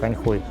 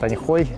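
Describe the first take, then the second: First: The second syllable sounds like 'hui'. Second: The second syllable sounds like 'hoy'. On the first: The original Chinese pronunciation. "по-китайски она произносится как Аньхуй" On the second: A softened form that avoids a rude-sounding word. "толеранты называют Аньхой"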